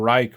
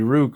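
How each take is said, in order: First: The name rhymes with like. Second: The name rhymes with book. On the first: "or Reich" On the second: "in English it would be Rook"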